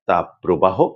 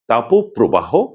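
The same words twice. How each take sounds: First: The first part ends in a bare consonant. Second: The first part ends in an o vowel. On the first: The speaker calls it wrong. "তারা বলেন তাপপ্রবাহ, দাবদাহ এমন করে। এ দুটিই কিন্তু সম্পূর্ণ ভুল উচ্চারণ।" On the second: The speaker calls it right. "করতে হবে তাপপ্রবাহ"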